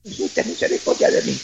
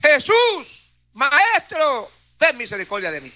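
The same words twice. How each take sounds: First: Low, voiceless whisper; whispered plea. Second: High cry that falls away; raised-voice plea. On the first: Lepers begging Jesus under their breath, whispered. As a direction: whisper it as if too faint to be heard. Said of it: "si ellos decían". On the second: Lepers calling to Jesus for mercy, raised voice. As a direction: call out high, then let it drop. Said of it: "alzaron la voz diciendo". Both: Acted.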